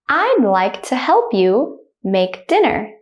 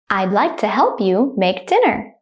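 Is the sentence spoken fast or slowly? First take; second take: slowly; fast. First: The sentence is spoken slowly and carefully. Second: The sentence is spoken fast and naturally. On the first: "The first time I'll say it slowly" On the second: "I'll say it like a native speaker, speed"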